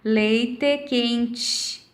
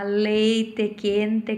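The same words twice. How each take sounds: First: A central Rio Grande do Sul accent with tch. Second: A border-region Gaúcho accent, close to Spanish. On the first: "pessoas como eu, que moram no meio do caminho, em Santa Maria" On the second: "mais para a fronteira, quem mora em Uruguaiana, Alegrete, vai falar"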